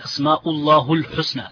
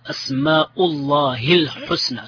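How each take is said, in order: First: The vowel before al-husna is a 'u' sound. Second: The vowel before al-husna is an 'i' sound. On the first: The speaker calls it wrong. "Some people say" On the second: The speaker calls it right. "the proper Arabic way of pronouncing this"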